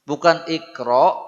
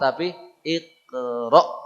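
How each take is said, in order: First: The syllables flow without a glottal stop. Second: A sharp glottal stop comes before 'ra'. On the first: The speaker calls it wrong. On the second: The speaker calls it right. "bahwa suaranya dia menghentak"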